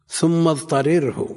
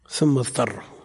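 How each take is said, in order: First: The two r sounds are pronounced separately. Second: The two r sounds merge into one. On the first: This is the underlying original form. "أصل ثم اضطرره" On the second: This is the form actually read. "ثم أدغمت الراء في الراء"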